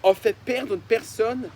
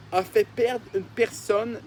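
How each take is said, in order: Both takes have the same delivery.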